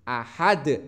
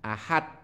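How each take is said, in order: First: The final d is released with a bounce. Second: The final d stops flat without bounce. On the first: The speaker calls it right. "maka harus dibaca memantul" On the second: The speaker calls it wrong. "Tidak boleh dibaca ahad"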